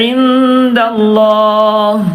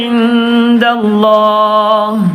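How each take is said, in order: No difference in how they are said.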